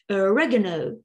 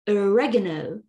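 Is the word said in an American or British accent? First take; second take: American; American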